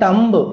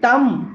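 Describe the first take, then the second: First: The word ends with a b sound. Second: The word ends without a b sound. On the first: The speaker calls it wrong. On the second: The speaker calls it right.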